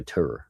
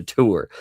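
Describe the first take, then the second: First: Tour said as "tur"; own Southern tour. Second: Tour spelled out as "too-er"; enunciated tour. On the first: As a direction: say tour like "ter", rhyming with fur. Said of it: "that's how I say it". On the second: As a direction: say tour carefully with a clear "oo". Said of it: "I'll enunciate it sometimes". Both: Shown as a demonstration.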